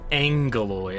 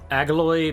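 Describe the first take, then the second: First: The name is said with an n sound. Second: The name is said without an n sound.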